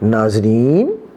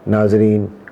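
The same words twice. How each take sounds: First: The pitch rises at the end, like a question. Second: The pitch stays flat, like a statement.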